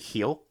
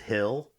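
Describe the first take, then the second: First: The vowel is long, as in 'heel'. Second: The vowel is short, as in 'hill'. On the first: The speaker calls it wrong. "I want to say heel all the time" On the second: The speaker calls it right. "it's so hard for me to say hill because I have to like really pronounce it"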